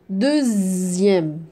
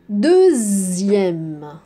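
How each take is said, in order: Both takes have the same delivery.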